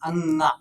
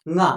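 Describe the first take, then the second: First: It is said as 'anga', with extra vowels. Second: It is said as a single nasal syllable 'nga'. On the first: The speaker calls it wrong. "अंगा उच्चारित करते हैं, अंगा, जो कि गलत है" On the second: The speaker calls it right. "ये अंगा नहीं, ङ है"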